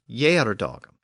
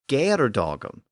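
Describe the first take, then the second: First: The word begins with a Y sound. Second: The word begins with a hard G sound. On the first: This is the later pronunciation. "the later and more traditional Yerdogum" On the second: This is the original older pronunciation. "pronounced the word with a G sound"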